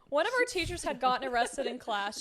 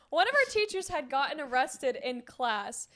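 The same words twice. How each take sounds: First: It is said flatly and at normal speed. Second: It is said enthusiastically and more slowly.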